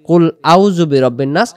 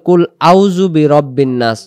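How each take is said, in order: No difference in how they are said.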